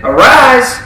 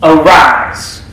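First: A higher, louder call to rise; commanding. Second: A firm, louder command to rise. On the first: Jesus commanding the girl to rise from death, loud and high. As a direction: ring it out like a command. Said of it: "he commanded". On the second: Jesus commanding the dead girl to rise, firm and loud. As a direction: order her up, firm and strong. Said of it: "gave her a command". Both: Acted.

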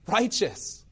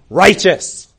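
First: High, softer echo of the cry; hushed echo. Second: Loud, sudden courtroom cry; calling out. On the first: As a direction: repeat it softly, pitched up, as if astonished. Echo of the startling courtroom cry. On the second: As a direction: call out loudly to interrupt the court. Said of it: "another voice calls out". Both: Acted.

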